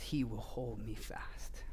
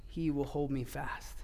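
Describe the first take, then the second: First: Slow, hushed, much softer whisper; closing hymn line whispered to the congregation. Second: Said in the usual way. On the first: Acted. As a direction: breathe the hymn line tenderly.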